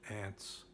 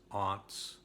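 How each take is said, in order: First: It is said like 'ants', the insect. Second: It is said with a broad 'ah' vowel.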